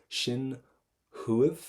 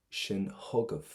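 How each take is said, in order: First: "huiv" as one gliding syllable ending in V; higher, separated "Shin ... huiv", no G in "huiv"; first pronunciation option. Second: "hugav" in two syllables with a G before the V; slow "shin hugav", sounding the middle G; second pronunciation option. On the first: Teacher offers students one way to say it, "huiv" without G. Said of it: "But listen to this". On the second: Teacher offers the alternative way, "hugav" with a sounded G. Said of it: "whichever way you want to pronounce it". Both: Shown as a demonstration.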